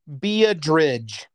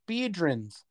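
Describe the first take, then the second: First: The name ends with a 'ridge' sound. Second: The name ends with a 'rins' sound. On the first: The speaker calls it wrong. "he would pronounce it Beadridge" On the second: The speaker calls it right. "they're all saying Biedrins"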